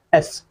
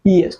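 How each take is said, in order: First: Said in the usual way. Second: एस split as ई एस, opening vowel separated; initial vowel shown. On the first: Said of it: "individually pronounce करते हैं". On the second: Shown as a demonstration. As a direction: sound out the vowel before the s in ई एस. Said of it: "इसका initial sound क्या होता है".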